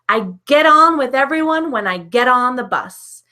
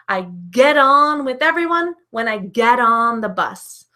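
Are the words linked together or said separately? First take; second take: linked; linked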